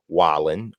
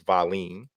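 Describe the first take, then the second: First: The name begins with a W sound. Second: The name begins with a V sound. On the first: The speaker calls it wrong. "a lot of people are probably pronouncing this Wallen" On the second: The speaker calls it right. "but it's Valine"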